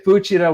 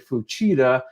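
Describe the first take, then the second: First: All syllables are said evenly, without stress. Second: One syllable carries a clear stress. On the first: This is how it is said in Japanese. "In Japan, they say Fuchida with no accent" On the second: This is how it is said in English. "In English, we say Fuchida"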